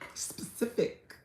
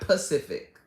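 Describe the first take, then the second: First: The word begins with a clear s sound. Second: The word begins without any s sound. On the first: The speaker calls it right. "You kind of have to clench your teeth a little bit" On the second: The speaker calls it wrong. "not Pacific"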